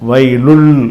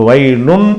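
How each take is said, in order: First: The n merges into a following l sound. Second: The word ends with a clear n sound. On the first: The speaker calls it right. "வயலுல் இந்த இல்லில் சேர்த்துடணும்" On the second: The speaker calls it wrong. "வயலுன் என்று இல்லாமல்"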